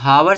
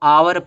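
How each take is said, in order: First: The word starts with an audible h sound. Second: The word starts directly with a vowel sound. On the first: The speaker calls it wrong. "इसको हम हावर से नहीं पढ़ते हैं" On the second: The speaker calls it right. "इसको आवर पढ़ पढ़ा जाता है"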